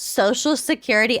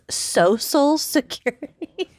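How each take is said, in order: First: Social is pronounced the ordinary modern way. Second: Social is pronounced in an old-fashioned way.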